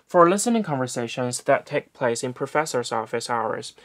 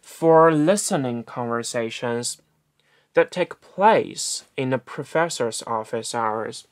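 First: Rushed reading. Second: Very slow, every word separated; slow clear reading. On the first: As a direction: read it quickly, running the words together. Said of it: "我说的非常非常的快". (快速朗读) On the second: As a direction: read it out slowly so each word lands. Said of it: "但是我如果这么说的话". (放慢语速清晰朗读) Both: Shown as a demonstration.

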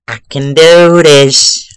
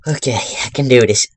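First: Loud, slow self-pep talk; slow, louder, gritted-teeth resolve; determined. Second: Said in the usual way. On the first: Real, not acted. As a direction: psych yourself up, drawn out.

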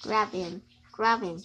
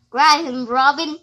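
First: Quiet grab him, low and soft; soft urging. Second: Loud "grab him", punched out; loud urging. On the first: Kid quietly urging a partner to grab the enemy, soft. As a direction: murmur "grab him" under the breath. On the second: Kid shouting at a partner to grab the enemy, loud. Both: Acted.

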